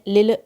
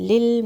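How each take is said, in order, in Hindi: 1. अंतिम L को झटके के साथ हिलाया जाता है। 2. अंतिम L को बिना झटके के सहजता से रोका जाता है। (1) "इसको शेक नहीं करना है, लिल ऐसे नहीं पढ़ना है" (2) "स्मूथली"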